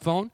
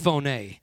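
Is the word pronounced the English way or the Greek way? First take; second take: English; Greek. First: It is pronounced like the English word phone. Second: It is pronounced the Greek way, as phoné. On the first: "We would pronounce it phone" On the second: "In the Greek, it's phoné"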